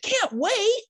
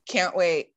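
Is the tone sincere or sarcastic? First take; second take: sincere; sarcastic. First: It is said sincerely and eagerly. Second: It is said with a sarcastic tone.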